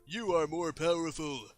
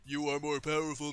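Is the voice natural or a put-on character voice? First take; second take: natural; put-on. First: It is said in an ordinary speaking voice. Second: It is said in a put-on character voice.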